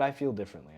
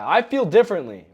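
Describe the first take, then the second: First: It is said in a calm, low, even voice. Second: It is said in a raised, heated, angry voice. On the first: The speaker is sincerely sharing an opinion. The speaker calls it right. "talk in the same normal voice ... even lower your tone" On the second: The speaker is upset with the listener. The speaker calls it wrong.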